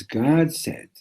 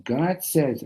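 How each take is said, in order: First: Emphatic declaration. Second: Yielding realization. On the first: Clinching answer to the challenge. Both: Acted.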